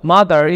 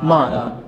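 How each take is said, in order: First: The final r is sounded. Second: The final r is dropped, British style.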